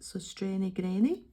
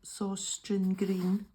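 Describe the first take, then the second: First: The last word is two syllables, like 'granny'. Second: The last word is one syllable, like 'green'. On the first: The speaker calls it right. "I think this is the correct way of saying it" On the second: The speaker calls it wrong. "we used to call it"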